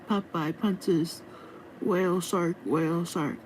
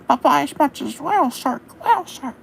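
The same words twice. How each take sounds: First: It is said in the speaker's normal voice. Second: It is said in a put-on cartoon sailor voice.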